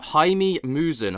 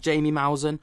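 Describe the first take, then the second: First: The first name does not sound like 'Jamie'. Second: The first name sounds like English 'Jamie'. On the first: The speaker calls it right. "apparently that's how I pronounce it" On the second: The speaker calls it wrong. "Gone are the days of Jamie Maussan"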